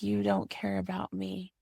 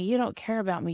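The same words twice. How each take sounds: First: It is said in a soft, gentle tone. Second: It is said in a harsh, accusing tone. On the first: The speaker is sharing a feeling. The speaker calls it right. "that softness changes everything" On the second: The speaker is making an accusation. The speaker calls it wrong. "That's very different than"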